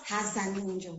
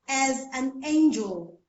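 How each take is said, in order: First: The first word starts with an h sound. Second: The first word starts with a vowel sound. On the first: The speaker calls it wrong. "not has an angel. So the person actually added H" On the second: The speaker calls it right. "the person is actually trying to say, as an angel"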